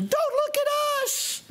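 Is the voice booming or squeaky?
squeaky. The voice is high, small and squeaky. "in their little microscopic squeaky voice"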